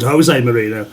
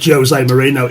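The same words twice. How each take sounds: First: Jose begins with a non-J sound. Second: Jose begins with a J sound, as in giant. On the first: This is the Spanish pronunciation. The speaker calls it wrong. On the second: This is the Portuguese pronunciation. The speaker calls it right. "in Portuguese it pronounces the giant as in like"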